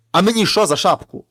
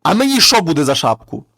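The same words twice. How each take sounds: First: Loud retelling of the shout; retold shout. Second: The dead man bursts out in a loud shout; sudden shout. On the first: Brother retells his scare shout at the thieves, loud. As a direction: replay the yell for his brother. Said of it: "Я як крикну". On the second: Acted. Corpse shouts at the thieves to scare them off, loud. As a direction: yell it out of nowhere to scare the thieves. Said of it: "А той мертвий крикнув".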